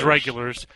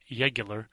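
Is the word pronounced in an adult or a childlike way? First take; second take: adult; childlike. First: The word is pronounced in a normal adult way. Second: The word is pronounced the way a small child would.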